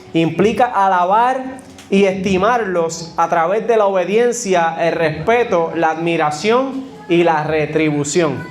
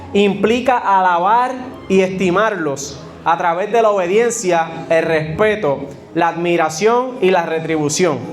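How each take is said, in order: The two takes are said the same way.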